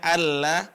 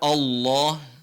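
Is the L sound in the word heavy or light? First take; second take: light; heavy. First: The L is said thin and light. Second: The L is said thick and heavy. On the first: "sebenarnya seharusnya Allah" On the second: "maka dibaca Allah"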